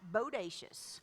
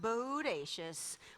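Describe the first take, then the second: First: The word is said quickly. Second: The word is said slowly.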